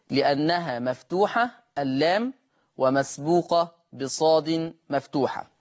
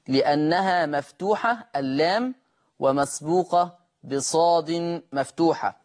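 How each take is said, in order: Both takes have the same delivery.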